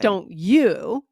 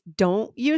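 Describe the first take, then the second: First: The stress falls on the word you. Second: The stress falls on the word don't. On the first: The speaker calls it wrong. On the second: The speaker calls it right. "So the emphasis is on don't"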